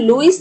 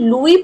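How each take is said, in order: First: The name ends with an s sound. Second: The name ends without an s sound. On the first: The speaker calls it wrong. "लुइस नहीं pronounce करेंगे" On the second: The speaker calls it right. "अब इसको हम लुई pronounce करेंगे"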